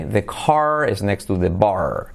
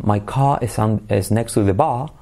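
First: Slow American demo, clear R in "car" and "bar"; American accent with R. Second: British non-rhotic "bar", ending on an open ah; British accent without R. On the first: Teacher contrasting the US with England, slow American R demo. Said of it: "simplemente se pronuncia la R". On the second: Teacher showing how England says it, British R-less demo. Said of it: "en Inglaterra no pronuncian la R, dicen bar". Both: Shown as a demonstration.

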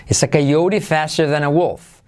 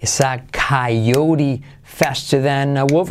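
First: Said in the usual way. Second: Slow, drawn-out model sentence; word by word, slowly; slow repetition. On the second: Shown as a demonstration. Teacher repeating the sentence for learners, slow and careful.

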